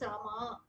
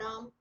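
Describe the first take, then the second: First: The final vowel is lengthened. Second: The final vowel is dropped. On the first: "people have an habit of adding an akar" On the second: "they will chant the last letter only half"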